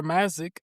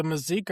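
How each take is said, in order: First: MAZ-ick, Mazik with a short a up front and a short i; stressed first syllable. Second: Muh-ZEEK, Mazik with a long ee stressed at the end; stressed second syllable. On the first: Co-host offers another way to say the surname, Mazik as MAZ-ick. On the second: Co-host offers a way to say the surname, Mazik as muh-ZEEK. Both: Shown as a demonstration. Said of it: "How would you say that".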